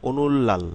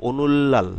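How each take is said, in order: No difference in how they are said.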